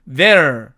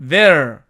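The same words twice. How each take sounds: Both takes have the same delivery.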